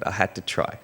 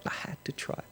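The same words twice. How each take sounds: First: Said in the usual way. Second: Near-whisper, much softer; hushed repeat. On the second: Real, not acted. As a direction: let it sink in with a hushed echo. Softly repeats it for emphasis.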